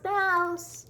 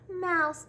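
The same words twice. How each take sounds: First: High calling yell, the second call the louder. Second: Calling out. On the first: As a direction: call out to a friend across the stump. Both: A narrator's reading. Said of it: "He yelled".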